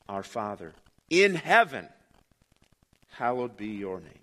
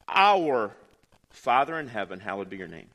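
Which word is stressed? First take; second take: in; our. First: The word 'in' is stressed. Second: The word 'our' is stressed. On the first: "emphasize the third word" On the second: "emphasize the first word and read the sentence"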